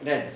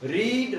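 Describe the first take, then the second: First: The vowel is short, like in 'red'. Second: The vowel is long, like in 'reed'. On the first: It is the past form of the verb. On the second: It is the present form of the verb.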